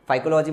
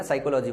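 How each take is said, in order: First: फाइकोलॉजी with a wrong F sound; mock mispronounced फाइकोलॉजी; wrong pronunciation. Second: साइकोलॉजी with a plain S, P silent; correct pronunciation. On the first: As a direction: say फाइकोलॉजी as the mistake to avoid. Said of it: "मत पढ़ लेना". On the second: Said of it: "यहाँ पी silent रहता है". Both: Shown as a demonstration.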